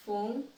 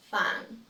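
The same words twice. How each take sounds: First: "Fun" said as foon; "Fun" with the u as spelt in Spanish; mispronounced. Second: "fun" with an open uh vowel; "fun" with a short open vowel; correct pronunciation. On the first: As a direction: say "Fun" with an oo vowel. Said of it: "I will say each one incorrectly". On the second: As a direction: say "fun" close to fahn. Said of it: "then I'll say it correctly". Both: Shown as a demonstration.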